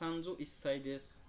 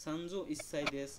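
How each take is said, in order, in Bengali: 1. 'sai'-এর আগে সংখ্যাটি সংক্ষেপে 'is' হয়ে যায়। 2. 'sai'-এর আগে সংখ্যাটি সংক্ষেপে 'is' হয়ে যায়।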